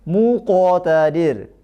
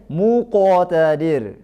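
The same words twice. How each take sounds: No difference in how they are said.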